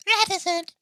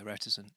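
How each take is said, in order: First: Very high, loud mimicry of "Reticent"; imitating her pronunciation. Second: Said in the usual way. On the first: Host copies the way she says it, squeaky loud imitation. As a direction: squeal "Reticent" in a put-on female voice. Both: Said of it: "I like the way she says it".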